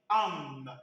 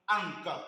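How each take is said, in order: First: The syllable ends nasally without a k sound. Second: The syllable ends with a hard k sound. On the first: The speaker calls it right. "on va dire An" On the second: The speaker calls it wrong. "on ne dira pas Ank"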